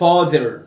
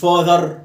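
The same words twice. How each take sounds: First: The ending of the word is kept low. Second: The ending of the word is raised high. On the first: The speaker calls it right. "father تحت" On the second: The speaker calls it wrong. "مش father"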